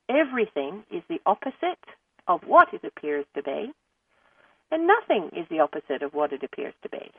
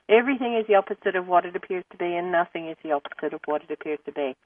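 First: It is said at a slower pace. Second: It is said at a faster pace.

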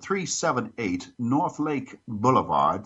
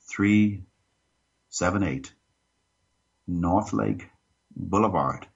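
First: It is said fast. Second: It is said slowly.

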